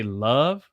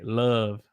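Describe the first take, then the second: First: Said in the usual way. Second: "love" with the vowel held; slow, drawn-out "love"; Southern love. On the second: Shown as a demonstration. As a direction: hold "love" long, Southern style. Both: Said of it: "the way we say love in the South".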